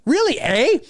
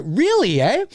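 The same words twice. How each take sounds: First: High, playful Canadian "Really, eh?". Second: Said in the usual way. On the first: Shown as a demonstration. Streamer hamming up his own Canadian turn of phrase to a viewer, Canadian "eh". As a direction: lean into the Canadian "eh", pitched up. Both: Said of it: "That's very Canadian".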